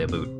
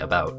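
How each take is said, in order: First: The vowel sounds like the 'oo' in boot. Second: The vowel sounds like the 'ow' in cow. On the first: This is a playful way of saying it. "I mostly say oot and a boot because it's just fun to say" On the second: This is the everyday way of saying it. "usually when I say the word about, I say about"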